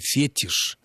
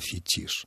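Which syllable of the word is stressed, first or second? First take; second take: first; second. First: The stress is on the first syllable. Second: The stress is on the second syllable. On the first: It sounds like a false English-style stress. The speaker calls it wrong. "если бы мы услышали фетиш" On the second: It is the established Russian stress. The speaker calls it right. "вместо фетиш"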